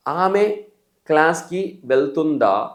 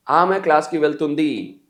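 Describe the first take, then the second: First: Slow, with వెళ్తుందా ending on a drawn-out "daa"; slow question demo, long "aa" closing వెళ్తుందా; question form. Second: Slow, with వెళ్తుంది ending on a falling "dii"; slow answer demo, వెళ్తుంది falling at the end; answer form. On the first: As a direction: stretch the last vowel of వెళ్తుందా as a question. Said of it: "question". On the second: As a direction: state it slowly, closing వెళ్తుంది on a long "ii". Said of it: "answer". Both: Shown as a demonstration.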